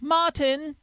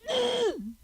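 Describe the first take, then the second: First: Both syllables are shouted out clearly. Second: The second syllable is swallowed and barely heard. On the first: "somebody in England could go" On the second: "over here, this is what we do. We can't say tin when we're shouting"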